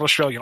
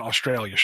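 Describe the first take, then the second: First: Said in the usual way. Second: "Australian" with its ending altered, lower; corrected word ending. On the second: Shown as a demonstration. Correcting the listener, "Australian" with an altered ending. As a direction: say "Australian" with a changed, falling last syllable. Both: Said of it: "Not Australian".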